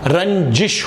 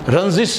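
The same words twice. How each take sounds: First: The consonant is a j sound. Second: The consonant is a z sound. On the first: The speaker calls it right. "इसके नीचे नुक्ता नहीं है" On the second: The speaker calls it wrong. "रंजिश नहीं होता"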